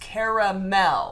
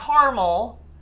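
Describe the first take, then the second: First: The middle vowel is pronounced, giving three syllables. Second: The middle vowel is dropped, giving two syllables. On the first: The speaker calls it right. "There's an A in between the R and the M. It's caramel" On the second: The speaker calls it wrong. "No, it's not caramel"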